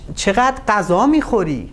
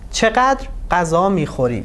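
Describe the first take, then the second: First: The stress falls on the final words. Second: The stress falls on the first word. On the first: The speaker is surprised at how much someone eats. "the stress is on this part and it's not a question" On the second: It is a real question about quantity. "we should put the stress on چقدر"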